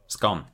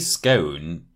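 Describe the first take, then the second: First: The vowel is short, rhyming with 'gone'. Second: The vowel is long, rhyming with 'stone'. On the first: "what's the fastest cake in the world?" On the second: "if you say scone, you can't do the joke"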